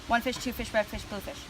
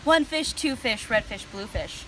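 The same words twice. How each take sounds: First: It is said at a faster pace. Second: It is said at a slower, ordinary pace.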